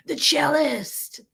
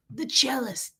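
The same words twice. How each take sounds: First: Drawn-out, higher mock announcement; mocking title. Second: Hushed, whispered mock title. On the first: Mocking husband's nickname for himself, drawn out and high. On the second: Mocking husband's nickname for himself, in a whisper.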